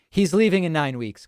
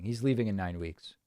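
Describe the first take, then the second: First: Firm, louder, stress on "leaving"; emphatic. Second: Quieter, low, "leaving" said gently as a calm close; softer repeat. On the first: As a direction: lean on "leaving" to settle it. Repeats answer to impeachment question. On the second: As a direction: let it fall away softly as a final word. Repeats answer, softer second time. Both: Real, not acted.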